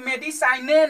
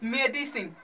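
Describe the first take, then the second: First: The word ends with an extra e vowel. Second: The word ends on the n with no vowel. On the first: The speaker calls it wrong. "मेडिसाइने नहीं कहेंगे" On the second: The speaker calls it right. "इसे क्या पढ़ेंगे"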